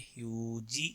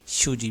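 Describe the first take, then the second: First: The word begins with an h-like sound. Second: The word begins with an sh sound. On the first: "ह्यूजी भी कह देते हैं" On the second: "शूजी भी कह देते हैं"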